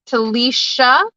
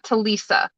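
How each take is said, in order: First: The middle consonant is a 'sh' sound. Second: The middle consonant is an 's' sound. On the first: The speaker calls it right. "because there's a sh" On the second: The speaker calls it wrong. "not Talisa"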